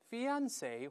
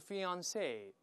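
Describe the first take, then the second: First: The stress is on the middle syllable. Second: The stress is on the last syllable. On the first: "重音在中间" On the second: "或者在后面"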